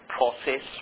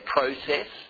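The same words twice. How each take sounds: First: It has an American pronunciation. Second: It has an Australian pronunciation. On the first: "all American pronunciations" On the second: "we used to say process"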